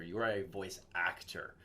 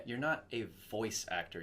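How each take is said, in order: First: "actor" stressed in "voice actor". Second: "voice" stressed in "voice actor". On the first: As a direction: lean on the word "actor". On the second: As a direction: lean on the word "voice". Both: Shown as a demonstration.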